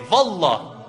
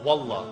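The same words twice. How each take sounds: First: The word begins with a v sound. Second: The word begins with a w sound. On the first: "So you see the waw turns into a v" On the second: "Instead of waw, they say it like v"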